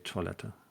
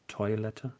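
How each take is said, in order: First: The 'oi' is said the French way, like 'wa'. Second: The 'oi' is read with plain German vowels. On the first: "we usually French it up and say" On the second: "generally, you would be absolutely correct that German words with O I are"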